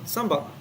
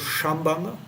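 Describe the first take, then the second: First: The word begins with a plain s sound. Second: The word begins with an sh sound. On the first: The speaker calls it right. "No, sambandha" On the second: The speaker calls it wrong. "Not, not shambandha"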